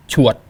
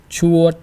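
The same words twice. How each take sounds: First: "chuột" short, falling and cut off; brief "chuột" with an abrupt stop; dot tone. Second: "Chuột" louder, held on a high, level pitch; long, steady "Chuột" like a note; flat tone. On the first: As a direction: punch "chuột" loud and stop it in the throat. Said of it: "and then the dot". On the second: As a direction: stretch "Chuột" evenly without falling. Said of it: "with the flat tone first". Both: Shown as a demonstration.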